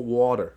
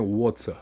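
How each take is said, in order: First: It is said with an American accent. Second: It is said with a British accent.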